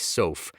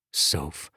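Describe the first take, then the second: First: Said in the usual way. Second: Husband comforting crying wife, tender and low; tender, lower Soph. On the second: Acted. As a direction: say her name gently, lower. Taking her in his arms.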